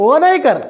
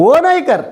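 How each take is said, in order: No difference in how they are said.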